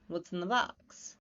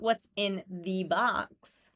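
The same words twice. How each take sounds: First: The words are reduced and run together. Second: Each word is pronounced fully and separately. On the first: The speaker calls it right. "but reduced" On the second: The speaker calls it wrong. "not what's in the box"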